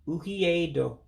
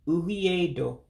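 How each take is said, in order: First: The 'e' before 'do' is dropped entirely. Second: The same.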